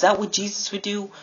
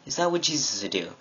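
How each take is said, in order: First: High-pitched rhetorical challenge; much higher, incredulous-style question; challenging question. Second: Quick rhetorical question; brisk follow-up question to a friend; repeated challenge. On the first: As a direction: pitch it high, confronting a friend. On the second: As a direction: ask it fast, at an everyday pitch. Repeats the challenge lower, faster. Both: Retold or imitated.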